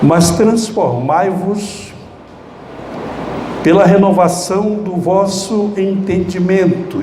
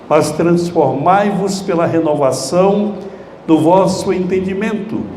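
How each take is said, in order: First: It is read slowly, in separate pieces. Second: It is read faster, in one flow.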